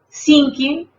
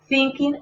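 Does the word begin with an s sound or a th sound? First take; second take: s; th. First: The word begins with an s sound. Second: The word begins with a th sound. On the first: The speaker calls it wrong. "Dense cuenta que la pronunciación es diferente" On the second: The speaker calls it right. "La T H en medio de los dientes"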